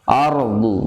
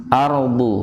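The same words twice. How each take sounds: The two takes are said the same way.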